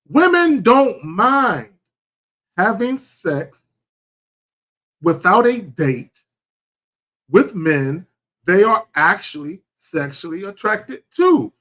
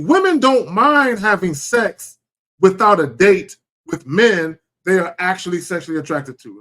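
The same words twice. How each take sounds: First: It is said more slowly. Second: It is said at a normal speed.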